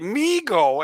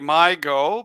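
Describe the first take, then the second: First: The first syllable sounds like "me". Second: The first syllable sounds like "my". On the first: The name follows an old football broadcaster's saying. "after what Bob Ufer used to say" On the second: The name follows how the letters look. "because that's my where my eyes go"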